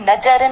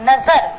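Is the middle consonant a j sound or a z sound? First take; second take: j sound; z sound. First: The middle consonant is a j sound. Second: The middle consonant is a z sound. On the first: The speaker calls it wrong. "अगर हम नुक्ता ना लगाए" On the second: The speaker calls it right. "ज के नीचे जो dot लगाए"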